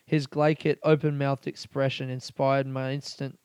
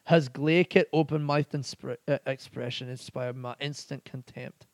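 First: Said in the usual way. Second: Put-on awful Scottish accent. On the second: Podcaster reading out a pub's slang definition in an awful Scottish accent. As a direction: have a bad go at a Scottish accent. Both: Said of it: "That was an awful Scottish accent".

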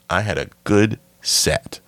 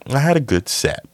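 First: "good" set apart with pauses; stress on "good". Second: Pitched well up, dropping at the end; high-pitched claim. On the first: Shown as a demonstration. Repeats claim with deliberate emphasis. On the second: Acted. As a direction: say it high, falling away. Contrasts two takes of same claim.

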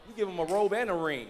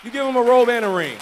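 First: Said in the usual way. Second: Loud, higher preaching shout; ringing exhortation, raised pitch and force; emphatic repeat. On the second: Real, not acted. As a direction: proclaim it at full pulpit volume. Repeats line for the congregation.

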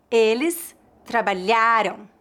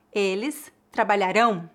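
First: Trabalharam stressed on "lha-RAM"'s first "RA", weak nasal ending; penultimate stress. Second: Trabalharão stressed on the last syllable "RÃO"; trabalharão as tra-ba-lha-RÃO, careful model; final stress. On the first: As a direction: slowly hit the RA in trabalharam, let "am" drop. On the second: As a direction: land firmly on the nasal ending of trabalharão. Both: Shown as a demonstration. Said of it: "a diferença de pronúncia dos verbos".

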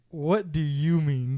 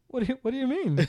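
First: Slow, drawn-out disbelieving question; deliberate retort. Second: Higher, hesitant mock confusion; puzzled sister. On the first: Retold or imitated. Brother throwing the question back at his sister, deliberate. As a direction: space the words out in disbelief. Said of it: "And so then I went". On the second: Brother imitating his sister baffled by his joke, puzzled. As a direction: stammer it like someone honestly baffled. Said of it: "turned her head slightly to the side".

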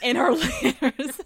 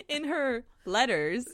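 First: Slow, laughing Southern drawl on "her"; southern accent. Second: Said in the usual way. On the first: Real, not acted. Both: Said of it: "my southern accent came out".

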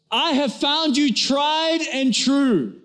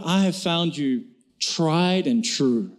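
First: Repeated for deaf wife. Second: Tender husband. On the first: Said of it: "He goes". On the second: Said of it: "lovingly and says". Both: Retold or imitated.

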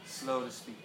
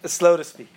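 First: Quiet repeat. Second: Loud proclamation. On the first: Pastor repeating the verse to the congregation, soft and low. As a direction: let it sink in, quietly. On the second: Pastor proclaiming the verse to the congregation, loud and laughing. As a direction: announce it boldly to the room. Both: Shown as a demonstration.

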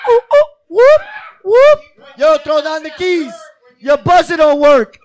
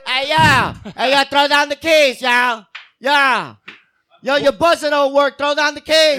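First: High whoops then loud call; shouting up to balcony. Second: Loud call up to a window; shouting up to balcony. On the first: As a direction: call up through the window. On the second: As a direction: yell up to a friend upstairs. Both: Shown as a demonstration. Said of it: "call a friend through a window".

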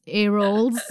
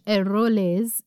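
First: Eroles as English-sounding "air-olls", questioning; anglicised second guess. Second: Eroles ending in a voiced "-lez", questioning; unsure French-style pronunciation. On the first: Host guesses at the surgeon's surname, unsure anglicised Eroles. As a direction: try Eroles again with English "role" in it. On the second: Host tries the surgeon's surname, hesitant French-style Eroles. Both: Shown as a demonstration. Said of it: "I don't know how to say that".

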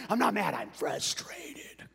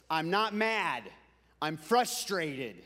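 First: Slow, strained whisper of frustration; imitating seething dad. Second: Dad's mock-stern denial, slowing down; imitating frustrated dad. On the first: Dad insisting he isn't mad, seething whisper. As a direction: force it out slowly in a whisper, barely contained. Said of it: "being frustrated to where you wanna kick". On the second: Preacher quoting his dad's favorite saying, mildly frustrated. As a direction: stress "not", then drag out "frustrated". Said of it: "he thought that being mad was".

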